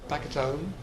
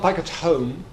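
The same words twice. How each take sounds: First: The h at the start of home is dropped. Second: The h at the start of home is pronounced. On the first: "H dropping" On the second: "Not back at home"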